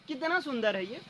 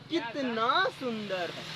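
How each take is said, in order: First: It is said as a plain question. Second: It is said with astonishment.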